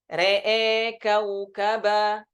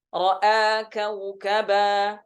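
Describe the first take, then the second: First: The first word has vowels leaning toward 'e'. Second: The first word has open 'a' vowels.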